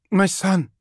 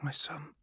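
First: High, loud anguished cry; blurted aloud. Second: Unvoiced, breathless whisper; barely there, a private thought. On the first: Mother crying out for her son to the assassin, high and loud. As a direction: it bursts out before she can stop it. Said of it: "She said the words aloud before she could help herself". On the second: Minister thinking of her son, whispered. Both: A narrator's reading.

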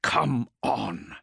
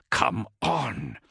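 First: Urging, stress on Come; gritted teeth. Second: Urging through gritted teeth. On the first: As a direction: push Come out through clenched teeth. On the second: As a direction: force it out through clenched teeth. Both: A narrator's reading. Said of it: "he urged through gritted teeth".

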